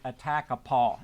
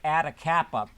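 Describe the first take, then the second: First: It ends with a drawn-out 'paw' sound. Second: It sounds like a string of Greek letters. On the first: The speaker calls it right. "he set me straight. He said, maybe it's more like Attakapaw" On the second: The speaker calls it wrong. "I presume to pronounce that like Atacapa, which sounds like a fraternity"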